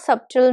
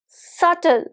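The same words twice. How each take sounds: First: The B sound is pronounced in the middle. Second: The B sound is silent in the middle. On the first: The speaker calls it wrong. "This is not subtle" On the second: The speaker calls it right. "this is subtle. ... So the B is silent"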